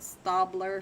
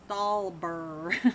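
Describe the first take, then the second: First: The b sound comes before the l sound. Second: The l sound comes before the b sound. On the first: The speaker calls it wrong. "I've said Stabler forever, and I keep getting corrected" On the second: The speaker calls it right. "It is Stalber"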